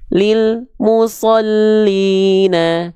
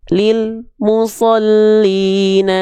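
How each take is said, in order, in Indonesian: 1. Bunyinya terputus antara lil dan mu. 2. Bunyinya terputus antara lil dan mu.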